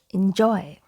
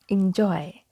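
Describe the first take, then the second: First: The first vowel sounds like 'i' in 'in'. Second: The same.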